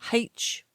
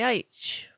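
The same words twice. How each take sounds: First: The letter name starts with an h sound. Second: The letter name starts without an h sound. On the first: "I actually grew up saying it like that" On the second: "And now I say H"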